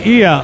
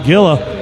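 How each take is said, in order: First: The word begins with a soft H sound. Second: The word begins with a hard G sound. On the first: The speaker calls it right. "is pronounced Ia" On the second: The speaker calls it wrong. "I used to call it Gilla"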